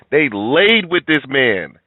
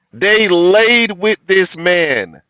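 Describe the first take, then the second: First: Slow, with stress on "laid"; indignant statement. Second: Loud, high, very drawn-out "laid with this man"; indignant repeat. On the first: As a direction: lean on "laid" at the usual volume. First take before an emphatic repeat. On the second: Repeats the line for indignant emphasis. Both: Real, not acted.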